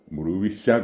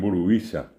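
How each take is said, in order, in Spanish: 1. La sílaba tónica es la última. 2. La sílaba tónica es la penúltima. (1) "como decimos nosotros" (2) "ellos hacen el acento llano"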